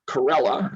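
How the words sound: The name is said with an American pronunciation. "That's how the Americans pronounced his name"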